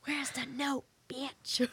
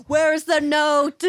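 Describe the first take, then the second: First: High-pitched but not shouted; playful high-voiced demand at normal volume; mock demand, held back. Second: High, slow, very loud demand; mock demanding shout. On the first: Joking demand to a ghost at seance, held-back mock demand. Same demand repeated, much softer. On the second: Pretending to question a ghost at seance, mock demanding shout. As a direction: bellow it out in pretend outrage.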